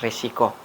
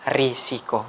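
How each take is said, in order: First: The first syllable has an e vowel. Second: The first syllable has an i vowel. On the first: The speaker calls it wrong. "bukan resiko" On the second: The speaker calls it right. "kata yang baku itu adalah risiko"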